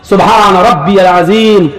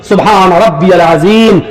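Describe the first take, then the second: The two takes are said the same way.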